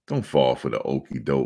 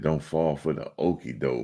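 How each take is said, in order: First: It is said in a put-on, performed voice. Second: It is read in a plain, ordinary voice.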